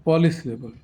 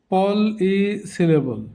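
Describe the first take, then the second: First: Said in the usual way. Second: polysyllable very slowly in parts; broken into syllables. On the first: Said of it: "এমনি উচ্চারণ করব". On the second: Shown as a demonstration. Teacher introducing the term, polysyllable said slowly piece by piece. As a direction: draw out polysyllable with small gaps. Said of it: "ভেঙে ভেঙে দেখানো হয়েছে".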